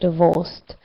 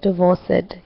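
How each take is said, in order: First: The ending is only a short D sound. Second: The ending is said as an extra syllable. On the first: The speaker calls it right. "just add the D to the end" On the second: The speaker calls it wrong. "You said divorced"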